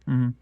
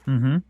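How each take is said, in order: The two takes are said the same way.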